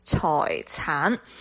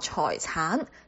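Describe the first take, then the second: First: The word is said with Cantonese pronunciation. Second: The word is said with Cantonese pronunciation.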